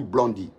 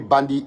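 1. Le mot commence par le son 'blon'. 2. Le mot commence par le son 'ban'. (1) "il ne peut pas prononcer bien bandit ... il dit blondi" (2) "au lieu de bandit"

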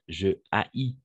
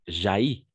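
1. La voyelle de 'je' est conservée devant 'haïs'. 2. La voyelle de 'je' est élidée devant 'haïs'. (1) "on va dire je haïs" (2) "et pas jaillis, parce que n'accepte pas l'élision"

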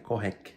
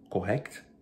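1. O k final é ouvido, mas o t não. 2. Os sons finais do k e do t são ambos ouvidos. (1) "vai se pronunciar só o C" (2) "Em vez de pronunciar o C T"

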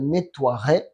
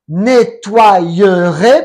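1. No suena ningún sonido de deslizamiento 'y' extra en medio. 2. Suena un sonido de deslizamiento 'y' extra en medio. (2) "porque la Y es una doble I"

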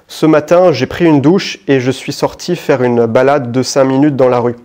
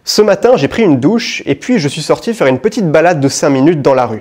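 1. La voix est plate, avec peu d'énergie. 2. La voix est animée, avec beaucoup d'énergie. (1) "Première version" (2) "Deuxième version maintenant"

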